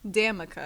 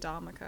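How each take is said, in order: First: The first syllable sounds like 'dam'. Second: The first syllable sounds like 'dom'. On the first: The speaker calls it right. "my name is pronounced Damica" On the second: The speaker calls it wrong. "weasel their way out of it"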